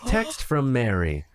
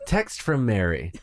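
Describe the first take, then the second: First: Slow flat robot readout; robotic voice. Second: Slow flat robot readout; monotone machine announcing a text; robotic voice. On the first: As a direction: read it like a car's text-to-speech. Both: Pretend. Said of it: "in a robotic voice saying".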